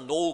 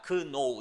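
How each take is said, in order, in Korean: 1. 이 단어는 n 소리로 시작하고, k는 묵음이에요. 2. 이 단어는 n 앞의 k 소리로 시작해요. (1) "K가 발음이 안 나잖아요. 그래서 know 그렇게 발음하는데" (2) "원래대로 발음한다고 한다면 그노우라고 발음을 해야"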